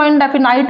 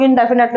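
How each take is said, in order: First: "इंडेफिनाइट" ending in a long "-nite" sound; "इंडेफिनाइट" with an "eye" vowel at the end; alternate pronunciation. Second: "इंडेफिनिट" ending in a short "-nit" sound; short-vowel pronunciation. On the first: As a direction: say "इंडेफिनाइट" with the last syllable rhyming with "night". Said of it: "कई लोग इसको इंडेफिनाइट बोलते हैं". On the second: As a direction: say "इंडेफिनिट" with the last syllable rhyming with "knit". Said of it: "कई लोग इंडेफिनिट बोलते हैं". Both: Shown as a demonstration.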